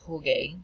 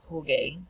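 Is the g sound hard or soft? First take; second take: hard; hard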